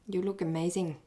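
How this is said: It sounds grudging and jealous. The speaker envies the other person. "from jealousy"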